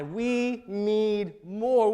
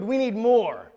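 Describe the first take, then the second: First: Very slow "we need more", each word stretched; weighty, stretched-out declaration in God's words; drawn-out emphasis. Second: Louder, firm "We need more"; forceful declaration in God's words; emphatic demand. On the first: God's demand, drawn-out retake. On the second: God's demand, first take. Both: Acted.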